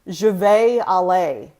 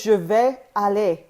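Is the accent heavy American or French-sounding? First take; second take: American; French-sounding. First: It is spoken with a heavy American accent. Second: It is spoken with clipped, French-sounding vowels. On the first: The speaker calls it wrong. "let me speak with a really heavy American accent" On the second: The speaker calls it right. "the word is je vais aller"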